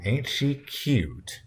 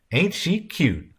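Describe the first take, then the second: First: Very slow, higher, stretched-out compliment; strained politeness. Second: High, drawn-out cooing remark; Red Sam's wife. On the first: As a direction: stretch it out with a polite, tight mouth. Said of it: "stretching her mouth politely". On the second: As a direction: coo it slowly, pitched well up. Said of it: "Red Sam's wife said". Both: A narrator's reading.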